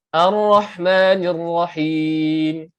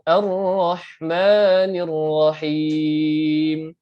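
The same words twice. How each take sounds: First: It is recited quickly with short vowels. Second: It is recited at a moderate speed. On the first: "kalau cepat sekali" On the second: "setengah laju ataupun sederhana laju"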